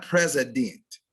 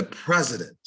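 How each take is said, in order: First: PRESIDENT as PREZ-i-DENT, full last vowel; overstressed syllables. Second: PRESIDENT as PREZ-i-dnt, weak ending; first-syllable stress. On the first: Diction teacher showing the error to avoid, overstressed ending. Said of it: "It's not president". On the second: Diction teacher giving the correct form, first syllable stressed. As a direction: let the end of president go unstressed. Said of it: "it's the president". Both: Shown as a demonstration.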